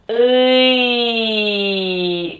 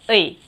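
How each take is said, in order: First: The syllable is drawn out slowly. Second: The syllable is said quickly. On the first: The speaker calls it wrong. "이 의를 너무 느리게 읽으면" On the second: The speaker calls it right. "그냥 빠르게"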